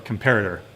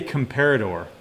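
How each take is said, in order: First: The final syllable is emphasized and stressed. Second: The final syllable is weak and unstressed.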